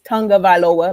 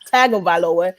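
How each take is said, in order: First: The middle consonant is an ng sound, like tongue. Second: The middle consonant is a plain hard g sound. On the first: The speaker calls it right. "the right way ... like tongue" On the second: The speaker calls it wrong. "It's not Tagovailoa"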